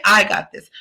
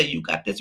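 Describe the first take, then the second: First: I said with weight, owning it; I got this, leaning on "I"; stress on I. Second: Said in the usual way. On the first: Shown as a demonstration. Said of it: "We're gonna say". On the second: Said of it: "we're not gonna say".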